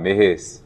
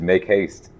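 First: It is said in a reduced Liberian English accent. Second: It is said in a plain standard English accent. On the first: It mimics how a Liberian mother says it. "it was just the way she pronounced it" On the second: It gives the standard form of the phrase. "It's just make haste"

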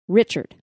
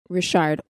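First: The name is said with an English pronunciation. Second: The name is said with a French-Cajun pronunciation.

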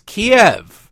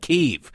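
First: The name is said like the chicken dish. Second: The name is said the newer way, unlike the dish. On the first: This is how it has always been pronounced. The speaker calls it right. "it's Kiev, okay? It's just like the chicken dish" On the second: This is the changed pronunciation imposed by others. The speaker calls it wrong. "I refuse to call it Kyiv"

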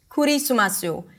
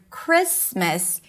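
First: The consonant clusters are broken up with added vowels. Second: The consonant clusters are said with no added vowels. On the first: The speaker calls it wrong. "it might be pronounced as Kurisumasu" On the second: The speaker calls it right. "if we look at the word Christmas"

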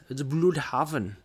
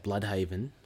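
First: The first syllable has a German-style rounded vowel. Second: The first syllable sounds like the word blood. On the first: "it's got the little dots over the U" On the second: "let's be just Aussie and just say Bloodhaven"

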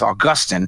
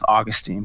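First: The name is said in a British way. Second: The name is said in a non-British way. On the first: "he pronounces it the British way" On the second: "I always thought it was Augustine"

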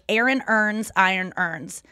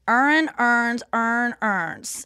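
First: It is said in a standard American accent. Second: It is said in a Baltimore accent.

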